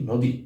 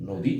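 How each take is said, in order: First: The final vowel is kept short. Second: The final vowel is kept short.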